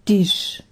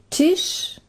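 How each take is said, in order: First: Palatinate dialect, starting with a d sound. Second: Standard German, starting with a t sound.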